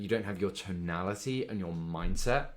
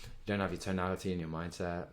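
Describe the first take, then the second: First: It is said in a lively, energetic voice. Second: It is said in a flat, lifeless voice. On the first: The speaker calls it right. "Simple change, but it makes a lot of difference" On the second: The speaker calls it wrong. "that's pretty dead"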